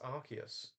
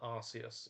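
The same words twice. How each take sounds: First: The consonant after 'Ar' is not an s sound. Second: The consonant after 'Ar' is an s sound. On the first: The speaker calls it right. "there's no S in it. It's Arceus" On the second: The speaker calls it wrong. "The amount of people I see call it Arceus"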